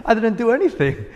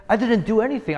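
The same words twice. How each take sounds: First: Higher and louder, laughing through it; laughing little kid. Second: Put-on higher, insistent child voice without laughing; protesting little kid. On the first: Retold or imitated. Pastor as a child protesting to his dad, laughing. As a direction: giggle it like a puzzled child. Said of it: "I was like". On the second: Pastor as a boy arguing with his proud dad, no laugh. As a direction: plead it like a small boy. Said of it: "I said".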